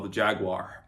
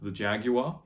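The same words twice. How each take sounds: First: It is said in an American pronunciation. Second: It is said in a non-American pronunciation.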